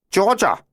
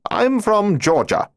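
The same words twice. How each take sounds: First: Put-on much higher, heavy German accent on Georgia; stronger German accent. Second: Put-on much higher, slow German-accented claim; a German bluffing a Georgia origin in German accent. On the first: Von Manstein answering the cop, thicker German accent. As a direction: lean harder into the German accent. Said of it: "speaking with an even stronger accent". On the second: Lieutenant answering the cop, in a light German accent. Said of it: "spoken in his German accent". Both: A narrator's reading.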